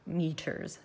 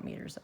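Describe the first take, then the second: First: "Meters" with a clear T, drawn out; careful self-correction on "Meters", T clearly sounded; corrected pronunciation. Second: "meters" tossed off softly, T slurred; softly echoed slip on "meters", loose middle consonant; mimicked slip. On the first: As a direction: say "Meters" carefully as MEE-ters, crisp T. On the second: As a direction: say "meters" quickly and quietly, like MEE-derz. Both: Shown as a demonstration. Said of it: "all of a sudden I have an accent".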